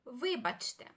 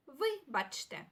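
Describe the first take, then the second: First: Said in the usual way. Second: "вибачте" slowly, with a break after ви; "вибачте" stretched out, falling at the end; slow pronunciation demo. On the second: Shown as a demonstration. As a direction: sound out "вибачте" carefully for learners. Teacher repeats word slowly for learners.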